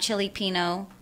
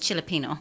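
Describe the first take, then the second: First: The name is split into two separate parts. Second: The name is run together as one word. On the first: It shows how the name is spelled. "I said it that way so that you guys can know how to spell it" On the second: It is how the name is really said. "but it's Chilipino"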